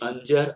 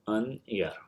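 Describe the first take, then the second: First: The middle consonant is a j sound. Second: The middle consonant is a y sound. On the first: This is the standard form of the word. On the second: This is the local dialect form of the word.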